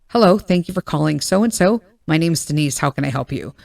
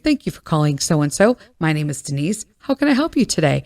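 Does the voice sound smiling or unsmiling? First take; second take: unsmiling; smiling. First: The voice sounds flat and unsmiling. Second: The voice sounds warm and smiling.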